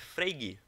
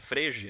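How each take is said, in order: First: The name is said in its native pronunciation. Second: The name is read as its spelling suggests. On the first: The speaker calls it right. "a pronúncia é Frege" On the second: The speaker calls it wrong. "a gente pode ler Frege"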